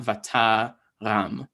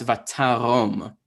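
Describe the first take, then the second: First: Vataram slowly, with an A in the last syllable; wrong vowel demo. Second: Vatarom slowly, with an O in the last syllable; O-sound demo. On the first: Teacher showing the misreading, slow A-sound Vataram. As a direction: break before a final "ram" in Vataram. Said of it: "not Vataram". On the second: Teacher demonstrating Kamatz Katan, slow O-sound Vatarom. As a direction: draw out the closing "rom" of Vatarom. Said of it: "this makes an O sound". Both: Shown as a demonstration.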